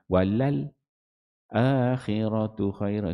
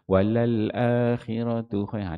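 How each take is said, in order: First: A brief silent stop comes before akhiratu. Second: It flows into akhiratu without any stop. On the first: "Itu wajah saktah" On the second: "tak ada saktah"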